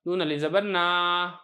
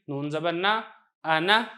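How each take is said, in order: First: "नून अलिफ ज़बर ना" with long final aa; slow mistaken spelling, "ना" stretched out; wrong reading with alif. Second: "नून ज़बर ना" with short rising final vowel; correct short reading. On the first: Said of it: "इसको आपने ऐसे नहीं पढ़ना". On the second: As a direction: spell without alif, then "आना" kept short. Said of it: "आप इसको ऐसे पढ़ें". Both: Shown as a demonstration.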